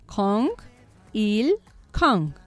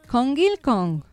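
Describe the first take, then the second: First: It is said slowly, syllable by syllable. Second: It is said at a normal, connected speed.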